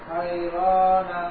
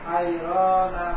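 No difference in how they are said.

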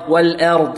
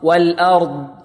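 First: The vowel after the hamza is tilted toward e. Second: The vowel after the hamza is a plain a. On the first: The speaker calls it wrong. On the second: The speaker calls it right.

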